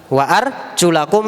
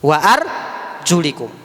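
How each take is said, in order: First: The vowel before the final kum is a. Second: The vowel before the final kum is i. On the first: The feet are joined to the washing command, so they are washed. "Itu riwayatnya Imam Nafi'" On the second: The feet are joined to the wiping command, so they are wiped. "Yang kasroh"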